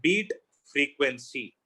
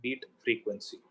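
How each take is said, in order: First: Slow, drawn-out projected delivery; loud demo, slowly spoken; demonstrating loud speech. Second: Softer demo voice; soft, quiet delivery for contrast; speaking softly. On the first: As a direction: stretch each word out slowly, projecting. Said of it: "now I'll speak loud". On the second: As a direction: say it softly, volume lowered. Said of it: "Now I'll speak softly". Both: Shown as a demonstration.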